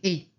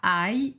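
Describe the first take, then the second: First: The word sounds like 'eh' with no glide. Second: The word sounds like 'eye' with a y-glide. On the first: The speaker calls it right. "c'est et" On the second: The speaker calls it wrong. "ce n'est pas aille"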